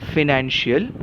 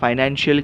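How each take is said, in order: First: The first syllable has a short 'fi' sound. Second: The first syllable has a long 'fai' sound. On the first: "फी और फाई में अंतर हो सकता है" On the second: "कुछ कुछ लोग इसका उच्चार फाइनेंशियल भी करते हैं"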